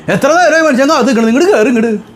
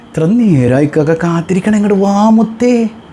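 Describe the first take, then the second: First: It is said in an irritated, scolding tone. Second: It is said in a sweet, affectionate tone.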